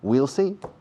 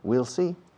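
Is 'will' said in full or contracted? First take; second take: contracted; contracted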